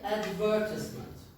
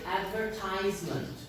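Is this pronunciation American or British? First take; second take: British; American. First: It is said with a British pronunciation. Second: It is said with an American pronunciation. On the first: "In British English they say advertisement" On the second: "in American English they say advertisement"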